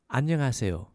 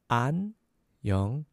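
First: It is said faster. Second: It is said slowly.

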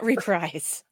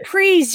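First: The word is said the rejected way. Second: The word is said the accepted way. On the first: The speaker calls it wrong. "not reprise" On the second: The speaker calls it right. "Reprise, you guys"

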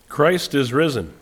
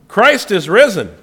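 First: It is said in a calm, plain tone. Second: It is said in an excited, cheering tone.

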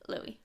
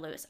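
First: The name ends without an s sound. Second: The name ends with an s sound. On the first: The speaker calls it right. "Sorry, Louis" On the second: The speaker calls it wrong. "Did you just say Lewis? ... I just read it as Lewis"

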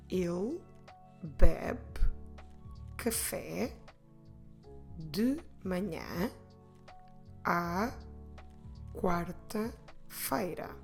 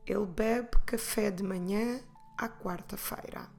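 First: It is said at a slower pace. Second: It is said at a faster pace.

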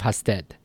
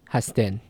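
First: The word ends in a d sound. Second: The word ends in an n sound. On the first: "instead of hasted" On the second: "the d at the end, will also become an n"

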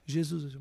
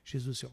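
First: It is said more strongly and loudly. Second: It is said slowly and softly.

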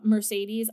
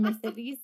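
First: The name is said with an American accent. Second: The name is said with a Spanish accent. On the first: "I'm gonna pronounce it the American way" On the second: "I feel very silly going Mercedes"

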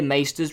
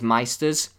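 First: The first vowel sounds like 'ay'. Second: The first vowel sounds like 'eye'. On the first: The speaker calls it right. "It is maester" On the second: The speaker calls it wrong. "you'll hear maesters referred to as meisters"

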